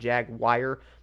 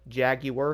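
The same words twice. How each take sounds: First: It is said as two syllables, Jag-wire. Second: It is said as three syllables, Jag-u-ar. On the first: The speaker calls it wrong. "it's not Jaguar, like a Jag and then a wire" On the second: The speaker calls it right. "or I'm sorry"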